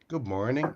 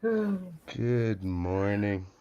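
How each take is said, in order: First: It is said with an Irish accent. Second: It is said with an American accent.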